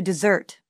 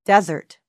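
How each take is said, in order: First: Desert as a verb, de-SERT; stress on second syllable. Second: Desert as a noun, DES-ert; stress on first syllable. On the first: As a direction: stress the end of "desert", reduced first vowel. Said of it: "Verb, to desert". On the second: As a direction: punch the start of "desert", falling away. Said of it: "Noun, desert". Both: Shown as a demonstration.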